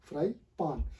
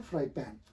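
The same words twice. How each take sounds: First: "fry पान" slowly, ending in paan; wrong pronunciation. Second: "fry पैन" with front ae in pan; correct pronunciation. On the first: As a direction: separate "fry पान" with long back aa. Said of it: "not fry पान". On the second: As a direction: open e sound in the पैन of fry पैन. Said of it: "ये actual word है". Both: Shown as a demonstration.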